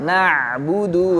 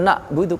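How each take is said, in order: First: The ain sound is clearly and fully sounded. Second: The ain sound is weak and barely heard. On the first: The speaker calls it right. "Maka bunyinya" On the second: The speaker calls it wrong. "Bukan na'budu, kurang"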